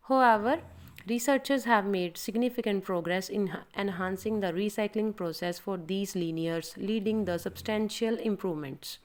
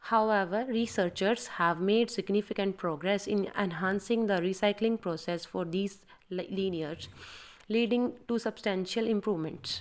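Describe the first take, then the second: First: Slow demo read. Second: Prepare the line by reading it slowly; slow practice read. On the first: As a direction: demonstrate the recording take, slow and clear. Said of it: "So you can see like this". (धीमा recording demo) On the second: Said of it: "Let's start". (धीमी अभ्यास वाली पढ़ाई) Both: Shown as a demonstration.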